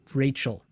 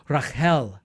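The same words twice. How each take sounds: First: Said in the usual way. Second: Rachel with a throaty ch, stress on the end; "Rachel" said Ra-khel, with a rasped ch sound; "Rachel" with the Hebrew ch. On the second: Shown as a demonstration. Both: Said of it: "the C H ... a ch sound".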